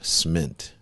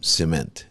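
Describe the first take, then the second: First: The first vowel is skipped entirely. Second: The first vowel is pronounced fully. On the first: "I just I skip that and just go cement. like mint, but with a S" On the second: "It's a sim, cement"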